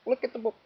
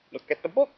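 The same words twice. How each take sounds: First: Higher, softer repeat. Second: Said in the usual way. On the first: Shown as a demonstration. Parent coaxing child to look, softer and higher. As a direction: look said up high and soft.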